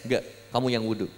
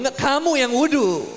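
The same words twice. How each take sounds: First: Low, soft, quick comeback; restrained retort. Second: High, escalating mock-angry comeback; heated retort. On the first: Retold or imitated. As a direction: refuse under your breath, fast. Retold quarrel, first quiet retort. (bantahan pelan dan cepat) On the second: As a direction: fire it back as the spat peaks. Retold quarrel escalating to loud retort. (bantahan sengit bernada tinggi)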